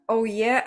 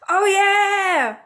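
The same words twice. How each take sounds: First: It is said at normal loudness. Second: It is screamed loudly.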